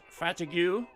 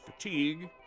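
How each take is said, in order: First: The word is said in an unusual, jokey way. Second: The word is said the usual, standard way.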